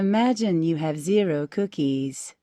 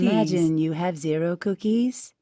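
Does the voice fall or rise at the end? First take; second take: fall; rise. First: The voice falls at the end, like a statement. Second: The voice rises at the end, like a question. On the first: It sounds like a statement. The speaker calls it right. "That was nice" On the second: It sounds like a question. The speaker calls it wrong. "no, that's not right. ... now it's a question"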